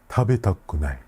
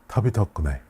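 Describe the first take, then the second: No difference in how they are said.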